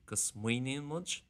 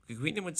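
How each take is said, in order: First: The verb begins with an s sound. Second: The verb begins with a k-like sound. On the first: This is the usual standard form. "actually going to be" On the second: This is a Connemara dialect habit. "a bit of more of a Connemara thing is pronouncing that S just like a C"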